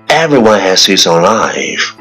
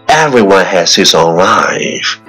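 The two takes are said the same way.

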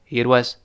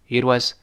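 No difference in how they are said.

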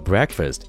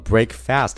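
First: The first part has a short vowel, unlike break. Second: The first part sounds like the word break. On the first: The speaker calls it right. "而是读作breakfast" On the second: The speaker calls it wrong. "它不读作breakfast 了"

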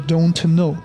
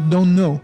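First: The t at the end of don't is pronounced. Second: The t at the end of don't is dropped. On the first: The speaker calls it wrong. "不要读作don't know" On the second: The speaker calls it right. "这个t 吞掉。它口语中读don't know"

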